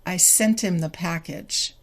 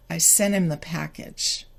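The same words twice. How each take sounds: First: SENT HIM as "sen-tim", T audible; slower linked form. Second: SENT HIM as "senim", no T; faster T-less form. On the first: Teacher tests learners' ears, SENT HIM with the T kept. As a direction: link the T of SENT HIM onto "im". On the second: Teacher tests learners' ears, SENT HIM with T deleted. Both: Shown as a demonstration. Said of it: "Can you hear the difference?".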